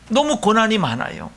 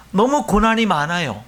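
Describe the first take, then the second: No difference in how they are said.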